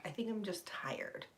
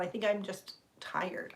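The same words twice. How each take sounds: First: Tired whispered confession. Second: Said in the usual way. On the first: Real, not acted. Streamer admitting to viewers she's tired, whispered. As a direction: breathe it out, worn out.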